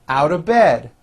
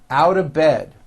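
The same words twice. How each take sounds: The two takes are said the same way.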